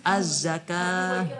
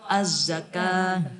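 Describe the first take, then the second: The two takes are said the same way.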